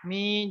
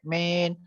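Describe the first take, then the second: First: The long 'ee' vowel is clear and drawn out. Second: The long 'ee' vowel is short and weak. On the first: The speaker calls it right. "Ya-nya harus jelas" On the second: The speaker calls it wrong. "jangan sampai min"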